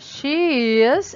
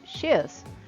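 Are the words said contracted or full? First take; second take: full; contracted. First: Two separate words are said in full. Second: The words are joined into one short syllable. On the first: "Ao invés de falar she is" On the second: "eu falo she is"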